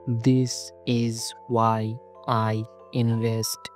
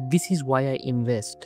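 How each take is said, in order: First: Each word is read separately with pauses. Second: All the words flow together without pauses.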